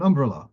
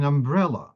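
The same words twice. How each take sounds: First: Umbrella stressed on the first syllable, UM-brella; misplaced stress. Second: Umbrella stressed on the middle syllable, um-BREL-la; correct stress. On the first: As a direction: hit the UM in umbrella. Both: Shown as a demonstration. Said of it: "the way you put the stress".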